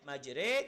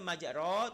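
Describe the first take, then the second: First: The second syllable ends in a tilted 'e' vowel. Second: The second syllable ends in a plain 'o' vowel. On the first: This is how it is actually read here. "tapi dia baca majre" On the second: This is how it would normally be read. "dia seharusnya majro"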